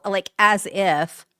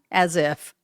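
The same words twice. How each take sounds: First: Put-on drawn-out, slow Valley girl "as if"; a light Valley girl drawl. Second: Said in the usual way. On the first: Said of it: "at the risk of sounding like a Valley girl".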